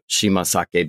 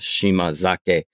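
First: The second part begins with an s sound. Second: The second part begins with a z sound. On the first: "the S changes to a Z when it's connected speech" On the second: "the S changes to a Z when it's connected speech"

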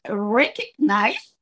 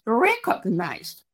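First: The o is not said as a Spanish o. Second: The o is said as a full Spanish o. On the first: The speaker calls it right. "the correct pronunciation was recognized" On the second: The speaker calls it wrong. "the O, I pronounced recognized"

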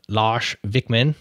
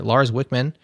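First: It is said with the local foreign accent. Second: It is said with a Midwestern American accent.

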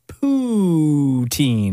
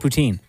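First: The stress is on the first syllable. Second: The stress is on the second syllable. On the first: "my brother really emphasizes the poo in poutine, as in" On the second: "I say poutine. ... So what am I emphasizing on? The teen"

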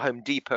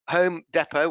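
First: It is said with an American pronunciation. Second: It is said with a British pronunciation.

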